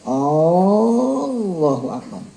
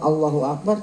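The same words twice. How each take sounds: First: The first vowel of Allah is drawn out long. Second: The first vowel of Allah is kept short. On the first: It becomes a question: is God the greatest? The speaker calls it wrong. "kalau dipanjang" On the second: It is a statement that God is the greatest. The speaker calls it right. "khobar berita Allah Maha Besar"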